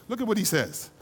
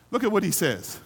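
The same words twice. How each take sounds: The two takes are said the same way.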